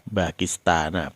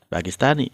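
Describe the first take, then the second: First: The word ends with an 'a' vowel. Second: The word ends with an 'i' vowel. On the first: The speaker calls it right. "dia tetap dibaca Pakistana" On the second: The speaker calls it wrong. "bukan Pakista, Pakistani"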